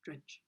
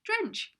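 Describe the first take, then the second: First: Drench said low and very soft; sad Drench. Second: Drench said high and cheerful, then fails; happy attempt. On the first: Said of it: "can't say it in a happy way". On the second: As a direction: try to say Drench happily, up high. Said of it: "Just try". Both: Shown as a demonstration.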